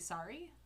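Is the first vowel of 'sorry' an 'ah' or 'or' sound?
ah. The first vowel is an open 'ah' sound. "it's an ah sound instead of an or sound"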